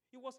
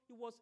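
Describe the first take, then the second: No difference in how they are said.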